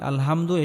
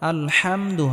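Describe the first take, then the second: First: The h is a plain, light h sound. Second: The h is pressed lightly from the throat. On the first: The speaker calls it wrong. "আলহামদু এটা হবে না" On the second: The speaker calls it right. "বড় হা উচ্চারণ করব, গলার মধ্যে হালকা চাপ দিয়ে"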